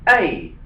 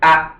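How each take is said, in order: First: The letter is said as its alphabet name. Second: The letter is said as its short sound. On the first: "their alphabet names" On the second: "the phonetic sound"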